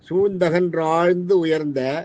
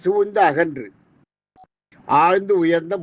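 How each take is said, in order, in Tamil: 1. சொற்கள் இடைவெளி இல்லாமல் ஒட்டிச் சொல்லப்படுகின்றன. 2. ஒவ்வொரு சொல்லும் தனியாக, சிறு இடைவெளியுடன் சொல்லப்படுகிறது. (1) "பாட்டை சொல்றேன்" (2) "பிரிச்சு படிக்கிறேன்"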